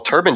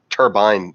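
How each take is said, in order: First: The second syllable is quick and reduced. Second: The second syllable is full and clearly pronounced. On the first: It is the easy, lazy way to say it. The speaker calls it wrong. "turbine just feels like it falls out of your mouth" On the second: It sounds deliberate and purposeful. The speaker calls it right. "Turbine sounds purposeful"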